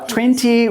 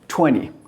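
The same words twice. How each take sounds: First: The T after the N is clearly pronounced. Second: The T after the N is dropped. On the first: This is the British way of saying it. "twenty with the T is British" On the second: This is the American way of saying it. "twenty without T is"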